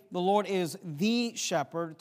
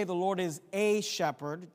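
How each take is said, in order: First: Slow, with THE stressed as "thee"; emphatic THE. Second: A stressed and said in full, tune left rising. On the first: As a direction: lean on THE as "thee", tune left rising. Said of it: "to emphasize the power and position". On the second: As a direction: set A apart as the rejected wording. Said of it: "just to highlight the characteristic". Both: Shown as a demonstration.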